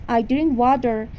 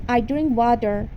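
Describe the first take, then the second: The two takes are said the same way.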